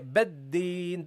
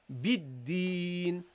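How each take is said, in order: First: The first vowel sounds like an open 'e'. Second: The first vowel is a clear, close 'i'. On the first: The speaker calls it wrong. "don't say beddin, don't say bed" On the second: The speaker calls it right. "pronounce a, a uh, clear kasra"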